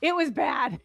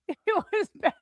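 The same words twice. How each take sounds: First: Said in the usual way. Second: It was bad, said through a laugh and pitched higher. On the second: Real, not acted. Summing up the near-suffocation to the host, laughing. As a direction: laugh off the scare.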